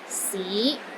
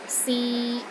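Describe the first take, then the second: First: The pitch rises from low to middle. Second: The pitch stays steady in the middle. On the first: It means city. "It starts low, then rises to the middle of your range" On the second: It means to try. "a mid-tone... in the middle of your range and it is steady"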